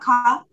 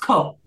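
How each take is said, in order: First: The syllable has an 'ah' vowel. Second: The syllable has an 'oh' vowel. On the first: The speaker calls it wrong. "It's not ka" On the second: The speaker calls it right. "it's ko"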